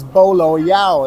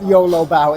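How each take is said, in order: First: The first word begins with a B sound. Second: The first word begins with a Y sound. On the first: The speaker calls it right. "It is Bolo Yao" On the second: The speaker calls it wrong. "I've just been saying it wrong. It is not YOLO Bao"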